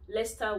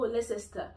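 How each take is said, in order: First: The ending is said shortly as 'ster'. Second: The ending is said fully as 'cester'. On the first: The speaker calls it right. "C E S T E R is pronounced as star" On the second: The speaker calls it wrong. "No, it's not Leicester"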